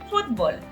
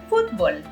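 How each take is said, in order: No difference in how they are said.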